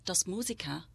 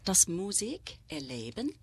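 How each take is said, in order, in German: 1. Das Wort teilt sich in Musiker, dann leben. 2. Das Wort teilt sich in Musik, dann erleben.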